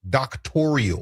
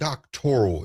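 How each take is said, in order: First: The word is said with an added fourth syllable. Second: The word is said with three syllables. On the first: The speaker calls it wrong. "She pronounces it doctorial" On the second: The speaker calls it right. "the word doctoral"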